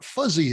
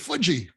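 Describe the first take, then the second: First: The middle consonant is a buzzing z sound. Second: The middle consonant is a j sound. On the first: "the Japanese wouldn't pronounce it that way" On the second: "heard her father, Toshio Fukuda, say fudgy"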